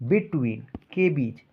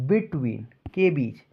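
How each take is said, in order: Both takes have the same delivery.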